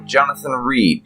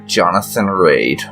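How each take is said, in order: First: The surname's vowel is like 'ee' in 'see'. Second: The surname's vowel is like 'ay' in 'day'. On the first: "depending on how you pronounce it" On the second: "I go with Raid because that's how it's spelled in game"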